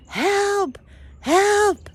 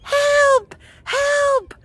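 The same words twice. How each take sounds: First: High drawn-out call, not full volume; mock screaming. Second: Put-on very high, thin child's call; little kid's voice. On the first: Walking lost around the woods, mock screaming. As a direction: imitate hollering for help, high. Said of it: "I'm screaming". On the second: Distant kid answering her in the woods, little kid's voice. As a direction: mimic a small kid calling out. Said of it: "I hear a little kid's voice going".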